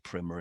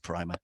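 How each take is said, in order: First: The word is said the American way. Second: The word is said the British way.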